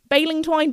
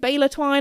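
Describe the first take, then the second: First: The first word ends with an 'ing' sound. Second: The first word ends with an 'er' sound. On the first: This is how some other people say it. "some people say baling twine" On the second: This is the speaker's own usual way. "I call it Baylor Twine"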